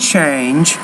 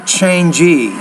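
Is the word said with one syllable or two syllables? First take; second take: one syllable; two syllables. First: The word ends without an extra vowel. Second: The word has an extra vowel at the end. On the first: The speaker calls it right. "it's only one syllable" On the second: The speaker calls it wrong. "not changey"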